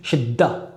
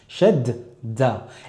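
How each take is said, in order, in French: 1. Le d se prononce une fois, avec une forte pression. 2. Le d se prononce deux fois : fermeture, puis ouverture. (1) "pas dans le fait d'appuyer sur la lettre, comme on peut l'entendre des fois chez des débutants" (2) "je vais d'abord dire shed avec un del sakin et ensuite je vais dire da"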